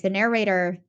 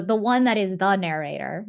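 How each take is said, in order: First: Said in the usual way. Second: "the" said as a full, emphatic "thee" before narrator; stress on THE. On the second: Shown as a demonstration. Podcaster singles out the narrator's title, stress on "the". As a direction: lean on "the" in "the narrator" to make it a title. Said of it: "that's his title".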